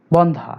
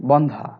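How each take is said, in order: First: "বন্ধা" with a closed o, bon-dha; wrong closed-O pronunciation. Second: "বন্ধা" with an open aw vowel, bawn-dha; correct open-O pronunciation. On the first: Teacher warns students off this form, "বন্ধা" as bon-dha. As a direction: round the first vowel of "বন্ধা" into o. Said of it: "এটার উচ্চারণ কখনোই বন্ধা হবে না". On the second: Teacher gives students the correct form, "বন্ধা" as bawn-dha. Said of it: "সঠিক উচ্চারণ বন্ধা". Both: Shown as a demonstration.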